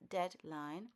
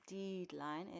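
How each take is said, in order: First: The first vowel is a short e sound. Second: The first vowel is a long ee sound. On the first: The speaker calls it right. "it's deadline" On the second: The speaker calls it wrong. "deadline is not pronounced as a long E. It's not deadline"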